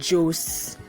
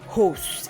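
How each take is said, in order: First: The name starts with a J sound. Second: The name starts with an H sound. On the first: This is how an English speaker would say it. "if it's to be articulated in English, it should be Jose" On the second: This is how Portuguese or Spanish speakers say it. "the way it is being pronounced by the Portuguese or the Spanish, it would be Hose"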